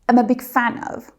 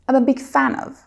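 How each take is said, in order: No difference in how they are said.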